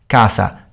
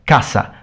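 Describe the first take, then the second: First: The middle consonant is a plain s sound. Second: The middle consonant is a strong, sharp s sound. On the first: This is the southern Italian way. "southern Italian" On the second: This is the Spanish way.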